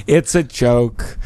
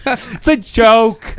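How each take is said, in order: First: Said in the usual way. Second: High, slow drawn-out it's a joke; mock announcement of the joke. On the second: Shown as a demonstration. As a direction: stretch it out up high.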